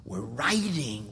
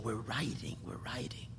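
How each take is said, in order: First: Said in the usual way. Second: Soft reverent whisper. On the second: Real, not acted. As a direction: repeat it in a fading whisper. Repeating phrase then fading.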